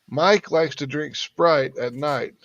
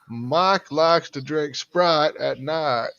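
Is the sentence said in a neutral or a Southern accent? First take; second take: neutral; Southern. First: It is said in a neutral accent. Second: It is said in a Southern accent. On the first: "just have them say" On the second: "you'll end up with"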